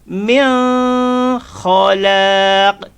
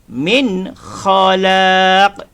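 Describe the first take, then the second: First: The n sound is hidden and barely heard. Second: The n sound is clear and distinct. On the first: The speaker calls it wrong. "kita baca sembunyi" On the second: The speaker calls it right. "yang betul"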